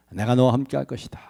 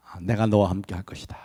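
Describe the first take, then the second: First: Said in the usual way. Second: Gentle reassurance. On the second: Acted. God voiced reassuring Moses.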